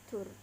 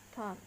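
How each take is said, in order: Both takes have the same delivery.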